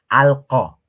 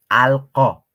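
No difference in how they are said.

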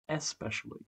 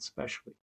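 First: The word starts with its first syllable. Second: The word starts without its first syllable. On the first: The speaker calls it right. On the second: The speaker calls it wrong.

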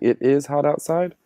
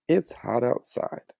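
First: The words 'it is' are said as two full words. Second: The words 'it is' are joined into one short word. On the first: "instead of saying it is hot outside" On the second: "we just like to say it's"

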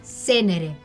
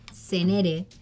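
First: The stress is on the first syllable. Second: The stress is not on the first syllable. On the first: The speaker calls it right. "Como si tuviese un acento en la primera E" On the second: The speaker calls it wrong. "mi apellido no se dice de esa manera"

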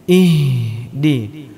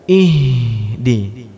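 Both takes have the same delivery.

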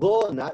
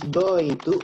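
First: The words are run together into one reduced word. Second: Both words are said fully and separately. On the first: "or gonna, remember the pronunciation" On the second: "She's going to"

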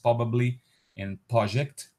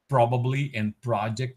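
First: The r after the p is dropped. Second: The r after the p is pronounced. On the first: "so they would be basically pronounced probably and project" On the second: "Omission of the R in pra"

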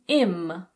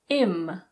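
First: The word is reduced with the H dropped. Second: The same.

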